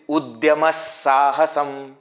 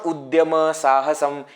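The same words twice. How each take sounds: First: The linking 'sa' sound is fully and clearly pronounced. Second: The linking 'sa' sound is not fully pronounced. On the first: The speaker calls it right. "It is Udyama Sahasam" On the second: The speaker calls it wrong. "if I don't pronounce that sa properly, it will sound like this"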